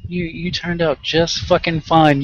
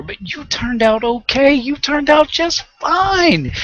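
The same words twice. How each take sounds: First: Said in the usual way. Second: Higher, slow, sing-song sarcastic echo; mocking sarcasm. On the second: Scoffing at people who excuse beatings, sarcastic high mock. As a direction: jeer the excuse back at them. Mocking the spanked-kids-turned-out-fine line.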